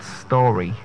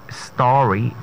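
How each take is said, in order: First: "story" said the wrong way, vowel altered; mispronounced story. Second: "story" said the standard way, STAW-ree; correct pronunciation. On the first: Coach showing what not to say, mispronunciation. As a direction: say "story" slowly with a closer, drawn-out o. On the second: Coach giving the next word, correct pronunciation. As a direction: say "story" with long open aw. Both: Shown as a demonstration. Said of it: "Story and not story".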